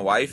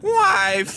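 First: The word is said in a smooth, steady voice. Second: The voice cracks while saying the word.

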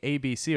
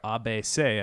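First: The letters are said the English way. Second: The letters are said the French way.

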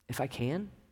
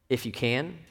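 First: It is said as a gentle, questioning query. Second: It is said as a forceful exclamation.

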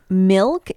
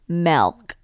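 First: The vowel sounds like 'ih', as in 'milk'. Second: The vowel sounds like 'eh', as in 'melk'. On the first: The speaker calls it right. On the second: The speaker calls it wrong.

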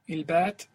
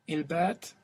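The two takes are said the same way.

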